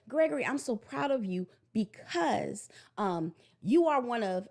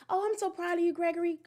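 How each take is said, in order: First: Slow, sincere praise; specific praise. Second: High, sing-song empty praise; generic praise. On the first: Mother telling her son exactly why she's proud, sincere. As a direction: say it meaning every word. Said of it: "And I say". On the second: Mother giving her son shallow praise, high sing-song. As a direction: gush without meaning it. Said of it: "I'm not just". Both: Shown as a demonstration.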